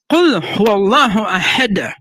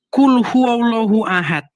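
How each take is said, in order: First: "Qul huwallahu ahad" slowly, releasing the final d of ahad with a bounce; "ahad" ending in a clearly bounced d; corrected Quranic pronunciation. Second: "Qul huwallahu ahad" slowly, with the final d of ahad softened to a t; "ahad" with a dull, unreleased ending; uncorrected pronunciation. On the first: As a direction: recite "Qul huwallahu ahad" carefully, echoing the d in "ahad". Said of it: "Harus ahad gitu". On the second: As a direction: recite "Qul huwallahu ahad" plainly, ahad ending without a bounce. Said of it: "bacanya bukan". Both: Shown as a demonstration.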